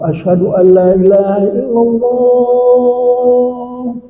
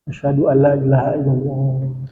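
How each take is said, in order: First: The phrase is said loudly and fully. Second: The phrase is said softly and quietly. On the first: "Sebelum dia baca asyhadu keras" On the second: "dia baca pelan dulu"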